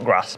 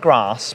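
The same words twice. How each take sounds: First: The vowel in grass is short, northern-style. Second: The vowel in grass is long, southern-style. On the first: The speaker's own way of saying it. The speaker calls it right. "no, you're going to go and stand on grass" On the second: Someone else's way of saying it. The speaker calls it wrong. "I'm going to go and stand on the grass"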